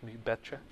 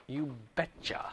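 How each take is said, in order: First: Softer repeat of "You betcha" with a faint Minnesotan lilt; just a touch of Minnesotan, tossed off; Minnesotan accent. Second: Lightly voiced Minnesotan "You betcha", quiet and casual; a hint of a Minnesota folksy "You betcha"; Minnesotan accent. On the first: Retold or imitated. Teacher repeating the phrase to the class, mildly Minnesotan. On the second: Teacher joking to the class in a light Minnesotan accent. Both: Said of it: "I think that's called that Minnesotan".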